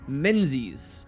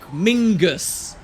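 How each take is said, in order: First: Said as spelled, with a z sound. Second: Said like Mingus, with no z sound.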